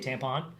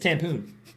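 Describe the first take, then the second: First: The last syllable has a short 'o' vowel. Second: The last syllable has a long 'oo' vowel. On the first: The speaker calls it wrong. "People usually pronounce it wrong. They say tampon" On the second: The speaker calls it right. "It's tampoon"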